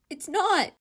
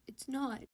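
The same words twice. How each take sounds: First: High, full-throated scream of no; desperate shout cutting the voices off; screamed denial. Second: Said in the usual way. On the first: Acted. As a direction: break the argument with a scream. Inner argument breaks into scream.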